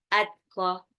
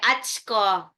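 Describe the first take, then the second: First: The consonants are released with a light puff of air. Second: An s-like hiss is added after the t. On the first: The speaker calls it right. "kayak ada hembusan udara waktu mengucapkannya" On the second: The speaker calls it wrong. "Tapi juga nggak sampai atsko. Nanti jadi sa"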